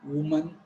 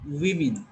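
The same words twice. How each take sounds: First: Woman, said WUM-un with an oo first vowel; wrong plural pronunciation. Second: Women, said WIM-in with a short i first; correct plural pronunciation. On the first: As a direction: say "woman" with a rounded WU at the start. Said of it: "It is not woman". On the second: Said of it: "have to pronounce it women". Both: Shown as a demonstration.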